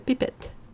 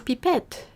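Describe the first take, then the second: First: The word is pronounced with English sounds. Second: The word is pronounced with French sounds. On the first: "We say uh" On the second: "that's the French way of saying it"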